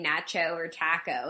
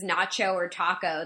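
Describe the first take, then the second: First: "NATCH-oh or TACK-oh", short a in both, softer and lower; British pronunciation. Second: "NAH-cho or TAH-koh", broad ah in both; American pronunciation. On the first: Showing what Brits say, nacho and taco with short a. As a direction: nacho and taco with the vowel of "cat". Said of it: "They say". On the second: Saying what Brits never say, nacho and taco with ah. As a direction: nacho and taco with the vowel of "father". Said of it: "never met a British person who says". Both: Shown as a demonstration.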